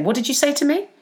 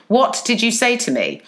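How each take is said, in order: First: Higher-pitched, rising challenge; challenging question. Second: Retold public challenge, falling at the end; mock loud confrontation. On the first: Retold or imitated. Worker first questions a threatening colleague, higher rising challenge. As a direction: ask it back in disbelief, pitch lifting at the end. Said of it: "I just remember saying". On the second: Worker confronts bully in open plan office, firm retold challenge. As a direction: challenge them firmly for the office to hear, mildly raised. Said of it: "like, really loudly".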